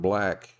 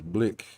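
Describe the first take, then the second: First: The vowel is the usual open 'a' sound. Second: The vowel is raised to sound like 'i'. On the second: "to a South African is blick"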